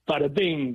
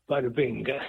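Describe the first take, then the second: First: It is said with lively energy and conviction. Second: It is said plainly, without much energy.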